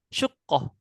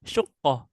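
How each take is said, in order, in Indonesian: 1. Vokal pertama adalah bunyi u. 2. Vokal pertama adalah bunyi u.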